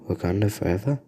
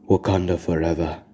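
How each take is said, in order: First: It is said quietly and unsurely. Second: It is said loudly and proudly. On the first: The speaker calls it wrong. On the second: The speaker calls it right.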